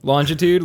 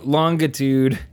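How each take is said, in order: First: "longitude" with a J sound, rising. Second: "longitude" with a hard G. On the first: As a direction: say "longitude" as lon-juh-tood, questioning. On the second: Host unsure of the word, hard-G "longitude". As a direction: say "longitude" as long-guh-tood. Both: Shown as a demonstration. Trying two pronunciations of longitude.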